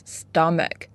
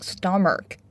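First: Stomach said slowly and correctly as STUM-uck, ending in a clean k; the right way: stomach as STUM-uck, with no r sound; correct pronunciation. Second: Stomach said wrongly, with an r-coloured ending like stomark; wrong pronunciation. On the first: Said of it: "Pay attention, it's not stomach, it's stomach". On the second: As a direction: give stomach a mistaken r sound at the end, sto-mark. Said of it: "Pay attention, it's not stomach". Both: Shown as a demonstration.

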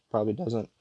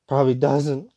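First: Real voice crack at the end. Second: Mock voice crack, louder and rising. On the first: Real, not acted. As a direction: let the voice break slightly. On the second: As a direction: exaggerate the crack, shooting up at the end. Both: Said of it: "You hear that crack in my voice".

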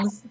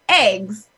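First: "eggs" with a short E, as in bed; East Coast pronunciation. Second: "eggs" with a long A, as AYGZ; own regional pronunciation. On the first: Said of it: "people on the East Coast always say eggs". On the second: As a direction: say "eggs" with the vowel of day. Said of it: "but, like, I say". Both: Shown as a demonstration.

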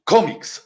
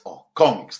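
First: Komiks said high, falling; komiks stressed. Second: Said in the usual way. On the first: Shown as a demonstration. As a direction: lift komiks then drop. (komiks z naciskiem, opadająco) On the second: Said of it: "taka rysunkowa opowieść".

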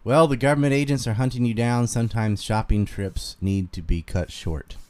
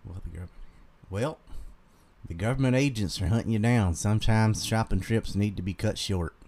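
First: Fuller, firmer Carolina twang; Southern Carolina accent, read out clearly. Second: Everyday Carolina Southern twang; natural Carolina accent, not too thick; normal Carolina accent. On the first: Streamer repeating the requested line, Carolina Southern accent. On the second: Streamer reading a viewer's message, Carolina accent. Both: Shown as a demonstration. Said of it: "I can just do my normal Carolina one".

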